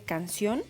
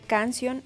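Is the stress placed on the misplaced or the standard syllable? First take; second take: standard; misplaced. First: The stress falls on the standard syllable. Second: The stress falls on a misplaced syllable. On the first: The speaker calls it right. "en lugar de canción" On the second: The speaker calls it wrong. "errores en la acentuación, como decir canción"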